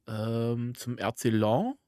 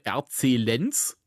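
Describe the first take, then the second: First: The name is said with French pronunciation. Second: The name is said with German pronunciation.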